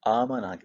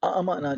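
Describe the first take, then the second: First: One long vowel is heard with no glottal stop. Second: A short vowel is followed by a glottal stop. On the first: "आमना पढ़ लेते हैं" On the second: "ऐसे बोलने की बजाय"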